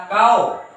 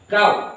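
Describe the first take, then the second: First: "kau" slackened towards "kao"; wrong reading. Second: "kau" closed firmly on w; one syllable "kau", no vowel after the w; correct closed w. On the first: Teacher warns against a misreading, "kau" said as "kao". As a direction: let the end of "kau" open into an o. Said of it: "Jangan dibaca kau". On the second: Teacher shows the silent-vowel reading, "kau" ending on w. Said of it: "makanya dibaca". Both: Shown as a demonstration.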